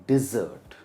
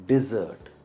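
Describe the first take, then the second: No difference in how they are said.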